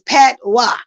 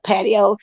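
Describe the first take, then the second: First: The word ends in a 'wah' sound. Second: The word ends in an 'oh' sound. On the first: The speaker calls it right. "it's Patois. Okay, not patio" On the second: The speaker calls it wrong. "I was calling it patio to look like that's the way it's spelled"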